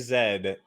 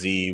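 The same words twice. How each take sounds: First: The letter is said as 'zed'. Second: The letter is said as 'zee'. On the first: This is the Canadian way of saying it. "I do say Z instead of Z" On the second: This is the American way of saying it. "most of them are American"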